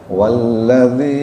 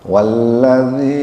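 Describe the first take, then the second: The two takes are said the same way.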